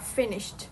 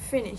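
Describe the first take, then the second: First: The final T sound is clearly pronounced. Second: The final T sound is dropped. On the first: "instead of" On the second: "pronounced without the th at the end"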